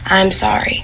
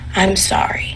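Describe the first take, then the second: First: It is said at a moderate volume. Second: It is said softly, slightly louder.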